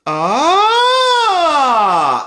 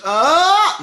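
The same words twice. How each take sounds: First: Loud, high, open sustained ah sliding down. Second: Tight, squeezed high ah sung up the range; pinched ah. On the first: Coach demonstrating to students an open ujjayi ah. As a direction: let the ah open up fully through the range. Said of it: "I can open it up". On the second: Coach demonstrating to students a pinched, strained high ah. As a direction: show the wrong, pinched way to go up. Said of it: "they pinch". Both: Shown as a demonstration.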